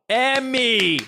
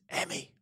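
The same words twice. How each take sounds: First: The name is called out loudly. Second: The name is whispered softly.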